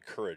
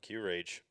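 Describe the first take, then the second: First: It sounds like the ordinary word courage. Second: It sounds like the letter Q plus rage. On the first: The speaker calls it right. "the actual, I imagine the proper way to say it" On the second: The speaker calls it wrong. "Q-Rage just seems so much more fun to say"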